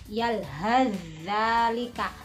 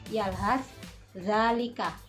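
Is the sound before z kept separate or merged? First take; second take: merged; separate. First: The consonant before z is merged into it. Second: The consonant before z is pronounced separately.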